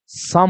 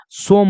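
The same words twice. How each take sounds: First: "सम" with a short uh vowel, low; short vowel in "सम", no long o; exception pronunciation. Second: "सोम" with a long o; rule-based mispronunciation. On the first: Teacher giving the real pronunciation, short low vowel. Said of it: "इसका pronunciation क्या हो जाएगा". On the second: Teacher showing the wrong regular reading, long o. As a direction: stretch the o in "सोम". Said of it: "ये उच्चारण गलत है". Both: Shown as a demonstration.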